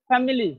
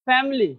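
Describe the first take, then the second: Both takes have the same delivery.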